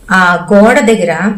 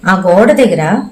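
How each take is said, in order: Both takes have the same delivery.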